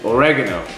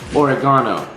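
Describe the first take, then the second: First: The word is pronounced in the standard way. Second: The word is pronounced in a foreign-sounding way. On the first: The speaker calls it right. "That's how you pronounce it" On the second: The speaker calls it wrong. "I keep saying oregano like I'm some sort of foreign kid"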